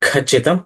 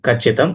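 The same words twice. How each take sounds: First: The first consonant is aspirated, with a breath. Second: The first consonant is unaspirated, without a breath. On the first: The speaker calls it wrong. "ఖచ్చితం అనకూడదు" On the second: The speaker calls it right. "ఖచ్చితం అనాలి"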